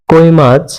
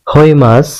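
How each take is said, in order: First: Said in the usual way. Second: কই said as হই with h; Chittagong dialect pronunciation. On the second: Shown as a demonstration. Teacher showing the Chittagong form হই মাছ. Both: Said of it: "হয়ের মতো উচ্চারণ করে".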